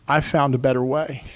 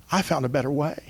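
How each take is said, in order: First: Said in the usual way. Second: Much softer, almost to himself; gentle softer echo; softer, tender repeat. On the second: Pretend. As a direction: let it fall quiet and sincere. Preacher repeats the imagined words.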